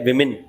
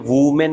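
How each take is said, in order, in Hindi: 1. पहला स्वर 'i' जैसा लगता है। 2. पहला स्वर 'oo' जैसा लगता है। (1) "ये है विमेन" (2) "ये वूमेन नहीं है"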